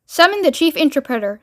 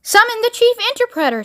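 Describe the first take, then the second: First: Composed, even order; nanny's instruction. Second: High, parroting command; childish president. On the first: Miss Tibbs instructing the president, composed order. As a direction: give the order evenly, in control. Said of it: "said Miss Tibbs". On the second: President repeating Miss Tibbs's order, high childish command. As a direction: echo the order in a much higher voice. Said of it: "said the president". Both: A narrator's reading.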